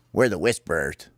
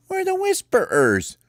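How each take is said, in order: First: Said in the usual way. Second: Very high, squeaky announcement; squeaky, insistent bird answer; emphatic repeat. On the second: Acted. Repeats name for baffled captain.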